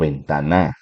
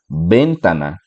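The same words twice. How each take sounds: First: The stress is on the last syllable. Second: The stress is on the first syllable.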